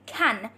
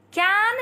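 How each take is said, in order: First: "can" with the front A of "cat" and a clear N; short-A pronunciation. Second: "Can" with a long, open "ah" vowel, like kahn; alternative vowel. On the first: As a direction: say "can" as kan, rhyming with "man". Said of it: "we're just making it can". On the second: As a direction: draw "Can" out as kaan. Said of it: "but we're just making it can". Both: Shown as a demonstration.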